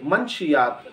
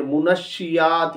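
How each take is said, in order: First: मंशियात as man-shi-yaat; common mispronunciation. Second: Slow मुनशियात as mu-nash-shi-yaat; correct pronunciation. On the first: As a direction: say मंशियात with no vowel after the n. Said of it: "ये सही तलफ़्फ़ुज़ नहीं है". (मंशियात, नून पर जज़्म के साथ) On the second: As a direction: say मुनशियात with u after m and doubled sh. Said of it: "ये इसका सही तलफ़्फ़ुज़ है". (मुनशियात, मीम पर पेश, शीन पर तशदीद) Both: Shown as a demonstration.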